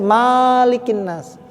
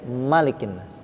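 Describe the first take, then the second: First: The first vowel of Malik is long. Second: The first vowel of Malik is short. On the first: The speaker calls it wrong. "nggak boleh dibaca" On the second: The speaker calls it right. "Ini dibaca pendek"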